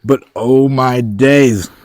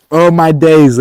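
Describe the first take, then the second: First: Slow, loud, awed oh my days; drawn-out excited exclamation. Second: Higher, loud, quick oh my days; sharp excited exclamation. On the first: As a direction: stretch it out in delight. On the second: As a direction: blurt it out thrilled. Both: Real, not acted. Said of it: "why I'm so excited right now".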